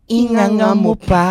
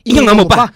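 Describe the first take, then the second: First: The command is said plainly, without extra force. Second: The command is said loudly, with extra force.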